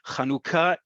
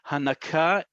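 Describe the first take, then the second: First: The second vowel is an 'oo' sound. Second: The second vowel is a short 'uh' sound. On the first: It names the holiday. The speaker calls it right. "the second vowel of this word ... is u" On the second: It names the act of breastfeeding. The speaker calls it wrong. "It is not uh"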